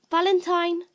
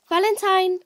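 First: Calling the dog again. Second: Loud call to the dog; calling the dog's name. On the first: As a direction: call the dog once more. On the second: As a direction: call the dog from across the room. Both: Real, not acted.

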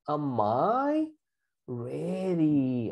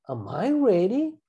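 First: Slow, lower, drawn-out words with a pause; slow model phrase. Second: Words linked, rising on "ready"; joined-up question. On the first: Teacher models a new question for class, slow and segmented. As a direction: stretch each word, pause before the last. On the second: Teacher repeats the question for class, connected and rising. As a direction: ask it in one go, lifting "ready". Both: Shown as a demonstration.

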